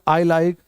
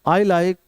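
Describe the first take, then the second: Both takes have the same delivery.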